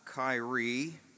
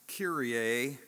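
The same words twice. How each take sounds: First: It is said as the modern English name. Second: It is said as the liturgical Greek word. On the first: The speaker calls it wrong. "not Kyrie, as the NBA player Kyrie Irving uses it" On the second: The speaker calls it right. "it's pronounced Kyrie"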